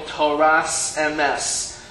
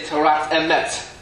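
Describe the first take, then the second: First: The words end with an s sound. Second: The words end with a t sound.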